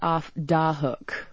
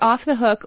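First: The word 'the' begins with a 'd' sound. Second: The word 'the' begins with a 'th' sound. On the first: "an alternate pronunciation is off da hook" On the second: "It's off the hook"

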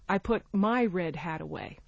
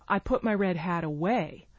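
First: The stress falls on the word my. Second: The stress falls on the word away. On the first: It was one's own hat, not another's. "As opposed to someone else's" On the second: It answers what was done with the hat. "Or where did you put your red hat"

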